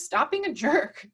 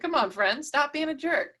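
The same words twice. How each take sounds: First: Said in the usual way. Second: A firm, higher call-out on jerk; calling a friend out. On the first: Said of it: "Marcus says". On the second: Pretend. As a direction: call him out, half-teasing but firm. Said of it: "might just call him out on it".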